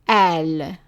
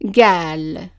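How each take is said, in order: First: The word starts with a glottal stop. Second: The word starts with a g sound. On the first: This is the form used in Lebanon and Egyptian cities. "it's pronounced as an a" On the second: This is the form used where qaf becomes g. "the qaf is pronounced as a g sound"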